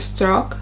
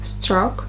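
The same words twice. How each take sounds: The two takes are said the same way.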